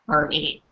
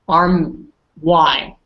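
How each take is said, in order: First: The word ends with an 'ee' sound. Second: The word ends with an 'eye' sound. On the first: The speaker calls it right. "like with an e at the end" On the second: The speaker calls it wrong. "usually you would think it's like"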